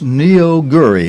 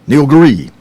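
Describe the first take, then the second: First: The name is said slowly and carefully. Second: The name is said quickly and run together. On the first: This is the proper form of the name. "but it's Neoguri" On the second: This is how reporters will say it. "they're going to say this fast as it goes by"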